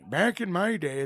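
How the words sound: It is said in a put-on old man's voice.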